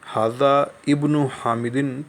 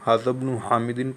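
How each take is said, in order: First: Hada ends in a vowel, then ibn is separate. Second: Hada runs straight into bn with no vowel. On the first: The speaker calls it wrong. "पढ़ने के बजाय" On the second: The speaker calls it right. "हमज़तुल वस्ल को नहीं पढ़ा जाता"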